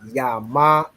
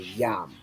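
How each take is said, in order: First: The syllable ends with a full vowel after m. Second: The syllable ends on m with no vowel. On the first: The speaker calls it wrong. "So it's not yama" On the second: The speaker calls it right. "The A is dropped off from the ma, so it's joined with the ya"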